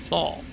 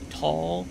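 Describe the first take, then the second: First: The syllable begins with a th sound. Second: The syllable begins with a plain t sound. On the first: "but I say thal" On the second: "I suppose the correct way to say it is tall"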